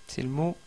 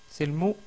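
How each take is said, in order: The two takes are said the same way.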